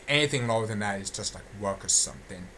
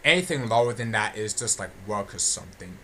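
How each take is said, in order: Both takes have the same delivery.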